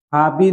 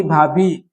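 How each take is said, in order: First: भाभी ending in plain "bi"; unaspirated bi. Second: Said in the usual way. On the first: Shown as a demonstration. Teacher showing a wrong form, plain "b" in भाभी. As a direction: take the breath out of भाभी. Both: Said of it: "नहीं".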